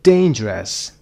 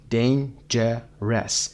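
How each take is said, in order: First: "Dangerous" as one word, DAIN-jerous; stress on first syllable. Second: "Dangerous" broken into dain, je, res; very slow, separated beats in "Dangerous"; syllable by syllable. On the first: Teacher showing word stress, first syllable of "Dangerous" stressed. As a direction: hit the start of "Dangerous", then fall. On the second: Teacher breaking the word up for learners, "Dangerous" in three beats. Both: Shown as a demonstration.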